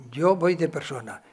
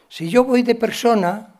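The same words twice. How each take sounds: First: Said in the usual way. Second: Yo punched higher and louder; stress on yo. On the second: Shown as a demonstration. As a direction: hit the word yo hard.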